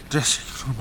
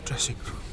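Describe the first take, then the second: First: Said in the usual way. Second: Breathless whisper. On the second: Acted. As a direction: whisper it to yourself. Whispering to herself.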